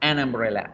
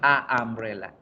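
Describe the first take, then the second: First: The article flows smoothly into the next word. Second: There is a stop between the two vowels. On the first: The speaker calls it right. "suena fluido, no se siente ningún obstáculo en la pronunciación" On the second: The speaker calls it wrong. "Tendría que parar un momento para poder pronunciar la otra A"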